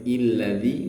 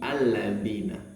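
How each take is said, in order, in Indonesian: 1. Kata ini diawali dengan vokal i. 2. Kata ini diawali dengan vokal a. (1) "nggak boleh illadzi" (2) "tapi alladzina"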